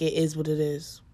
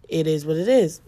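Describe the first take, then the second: First: Said in the usual way. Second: Louder, dismissive shrug of a line; "It is what it is" said flat and final, punching the last "is"; catchphrase delivery. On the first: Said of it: "I literally say that". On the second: Shown as a demonstration. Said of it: "my signature fa-, like, f-, catchphrase".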